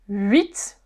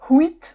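First: The word starts with a vowel, no h sound. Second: The word starts with an audible h sound. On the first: The speaker calls it right. "Das H am Anfang wird im Französischen allgemein nicht ausgesprochen" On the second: The speaker calls it wrong. "Und nicht huit oder so"

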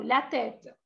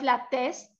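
First: No s sound is heard before the final t. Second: An s sound is heard before the final t. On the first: The speaker calls it right. "sino la tête" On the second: The speaker calls it wrong. "No es la test"

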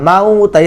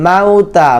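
Both takes have the same delivery.

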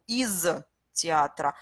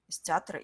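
First: A pause separates the preposition from the word. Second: The preposition ends in s and joins the word. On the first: The speaker calls it wrong. "Vous devez faire la pause et vous devez lire ça séparément, ce qui n'est pas correct" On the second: The speaker calls it right. "IS, on prononce comme avec S"

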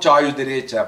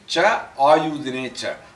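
First: The words are run together without a break. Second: The words are split apart into separate parts. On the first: "when you pronounce it, you go" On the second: "That's how the split up comes"

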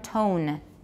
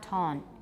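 First: The vowel is said full and tense. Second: The vowel is said lax and careless. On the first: The speaker calls it right. "You have to make an effort" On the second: The speaker calls it wrong. "Watch your O. It's not tone"

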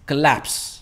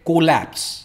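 First: The first syllable has a short reduced vowel. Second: The first syllable has a full 'o' vowel. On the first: The speaker calls it right. "It's कलैप्स" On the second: The speaker calls it wrong. "काफी सारे लोग इसे कहते हैं कोलैप्स। ये को नहीं है"

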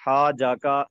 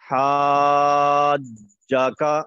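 First: The j sound is short, with no hold. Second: The j sound is held with a slight pause. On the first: The speaker calls it wrong. "یہ درست نہیں ہے" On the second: The speaker calls it right. "جیم پر تھوڑا سا ٹھہراؤ ہوگا"

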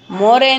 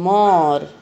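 First: The word ends with an extra vowel sound. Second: The word ends with no extra vowel. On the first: The speaker calls it wrong. "मोर ए नहीं बोलते" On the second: The speaker calls it right. "मोर बोलते हैं"

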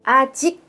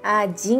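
First: The final consonant is a plain k sound. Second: The final consonant is a nasal ng sound.

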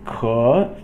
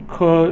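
First: The syllable dips low and then rises. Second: The syllable is said on a high level pitch. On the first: It means able. "third tone" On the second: It is a measure word for plants. "So 可 is first tone"

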